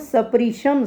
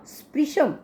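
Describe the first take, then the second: First: The 's' is said as a full syllable. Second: The 's' is clipped quickly into a cluster. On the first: The speaker calls it wrong. "स पूरा नहीं बोलना" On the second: The speaker calls it right. "स को जल्दी बोलना है हमने"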